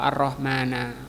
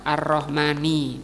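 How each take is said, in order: First: The word ends in the vowel a. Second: The word ends in the vowel i. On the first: The speaker calls it wrong. "atau Ar-Rahmana" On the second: The speaker calls it right. "di sini juga dibaca Ar-Rahmani"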